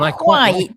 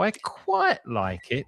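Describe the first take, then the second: First: The word quite gets one firm stress. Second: The word quite goes up and down. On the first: The speaker likes it a lot. "quite is delivered in one go" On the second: The speaker likes it only a little. "you're going quite up and down"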